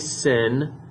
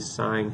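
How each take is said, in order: First: The word is said with a short 'i' vowel. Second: The word is said with a long 'i' vowel. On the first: The speaker calls it wrong. "We don't say sin" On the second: The speaker calls it right. "we usually sine"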